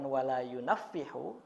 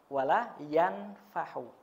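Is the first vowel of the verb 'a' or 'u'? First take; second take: u; a. First: The verb starts with 'yu' and a doubled middle consonant. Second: The verb starts with 'yan' and has no doubled consonant. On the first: The speaker calls it wrong. "Yang betul adalah ini bukan wala yunafihu" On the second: The speaker calls it right. "tapi wala wala yanfahu"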